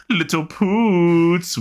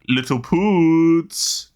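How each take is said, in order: First: Slow, stretched, high cartoon voice; big cartoon man voice. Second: Slow, drawn-out, high cartoon voice; big cartoon man voice. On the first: Greeting the co-host in a big cartoon man's voice. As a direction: draw it out like the cartoon guy. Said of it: "repeats the cartoon line". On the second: Remembering a cartoon scene, a big man's drawn-out voice. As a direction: stretch it out like a big cartoon guy. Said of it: "really big man in Rocko's Modern Life saying".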